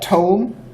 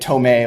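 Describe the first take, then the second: First: The word is said the plain way. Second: The word is said like the name Tomei. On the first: The speaker calls it right. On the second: The speaker calls it wrong.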